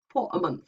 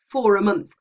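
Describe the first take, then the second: First: The words are said carefully and kept apart. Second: The words flow together with a linking r. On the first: It sounds very posh. "very careful R P ... perceived often as very posh English" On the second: It is the easy everyday way. "most of us will say for a month for ease of pronunciation"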